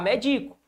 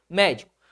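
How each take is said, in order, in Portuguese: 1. A tônica está na segunda sílaba. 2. A tônica está na primeira sílaba. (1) "Vai ficar medico. O ato de medicar, o verbo medicar" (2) "Se ela recebe o acento, proparoxítona"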